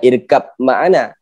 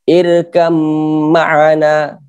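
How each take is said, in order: First: A separate b is heard before the m. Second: The b merges into the following m sound. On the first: The speaker calls it wrong. "bukan irkab ma'ana" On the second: The speaker calls it right. "Ba berjumpa dengan mim, maka dia nama idgham mutajanisain"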